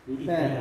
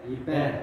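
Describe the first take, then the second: Both takes have the same delivery.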